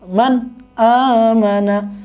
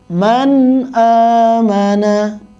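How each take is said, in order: First: The n is pressed, with a break before amana. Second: The words flow on without any break. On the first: The speaker calls it wrong. "ada jedah antara nun sukun dan tanwin, dan itu tidak boleh" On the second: The speaker calls it right. "dibaca jelas"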